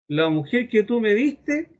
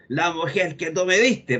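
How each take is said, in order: First: It is said in a frightened, trembling way. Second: It is said in a blaming, accusing way.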